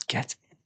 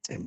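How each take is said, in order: First: Breathy whisper of celebration; hushed private cheer; whispered get in. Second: Said in the usual way. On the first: Real, not acted. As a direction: whisper it to yourself, delighted. Celebrating going to the tournament.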